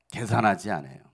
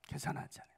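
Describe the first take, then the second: First: Said in the usual way. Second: Hushed whispered repeat of 계산하지 않아요. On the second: Shown as a demonstration. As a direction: breathe 계산하지 않아요 with no voice at all. Repeats line, then whispers it.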